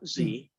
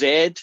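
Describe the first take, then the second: First: The letter name is said the American way. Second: The letter name is said in a non-American way. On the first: The speaker calls it wrong. "not Z" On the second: The speaker calls it right. "It's Z"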